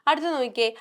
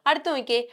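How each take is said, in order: No difference in how they are said.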